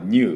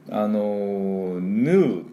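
First: It is said the British way. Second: It is said the American way. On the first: "イギリスではこれNU って言います" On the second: "NU と発音するのはアメリカ式"

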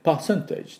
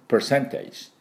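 First: The r sound is dropped entirely. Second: The r sound is clearly pronounced. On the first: "イギリスではそこまで、いきなりpercentage っていうような気がしますが、r 入れなくて" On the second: "アメリカにはしっかり入れていきます"

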